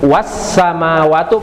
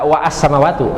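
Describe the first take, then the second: First: The wa links straight into samawatu without glottal a. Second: A separate glottal a is said after wa. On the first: The speaker calls it right. "pakai wawu, maka a-nya jadi nggak ada" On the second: The speaker calls it wrong. "Enggak wa as-samawatu"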